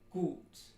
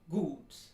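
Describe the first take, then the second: First: The vowel is long, tense, back and steady. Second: The vowel is long, tense, back and steady.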